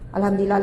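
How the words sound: It is said in an irritated, angry tone. The praise is not sincere. The speaker calls it wrong. "kadang-kadang sambil marah"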